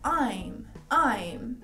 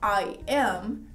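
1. As duas palavras são contraídas em uma só. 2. As duas palavras são ditas por extenso. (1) "você pode falar I'm. Então ele já te dá mais naturalidade" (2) "Ao invés de você falar I am"

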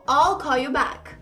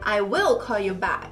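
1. A palavra 'will' é contraída para 'I'll'. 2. A palavra 'will' é dita por extenso, com ênfase. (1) "Só que eu gosto de falar all" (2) "Quero enfatizar, eu quebro essa contração"

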